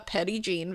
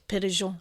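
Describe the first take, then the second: First: The name begins with a 'petty' sound. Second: The name begins with a 'peh-reh' sound. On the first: This is how locals say it. "a true Arkansasian who said it is Petty Jean. That's how we say it" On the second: This is how an online source gave it. "when I looked it up at first it said Péréjean, which sounds very nice"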